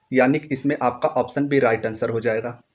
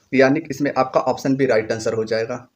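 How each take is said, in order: No difference in how they are said.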